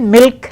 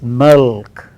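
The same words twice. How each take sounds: First: The L is light and clear. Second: The L is dark, pulled back. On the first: The speaker calls it wrong. "normally we say milk like that" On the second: The speaker calls it right. "It is milk"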